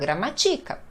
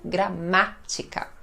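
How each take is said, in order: First: The stress is on the third syllable. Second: The stress is on the second syllable. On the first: The speaker calls it wrong. "Se eu não colocar o acento, fica gramatica" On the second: The speaker calls it right. "Coloco o acento, gramática"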